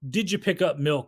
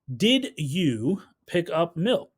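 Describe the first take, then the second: First: 'Did you' is run together and reduced. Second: Every sound of 'did you' is clearly enunciated. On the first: "you're not probably going to like explicitly enunciate every single sound" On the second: "You're not going to say"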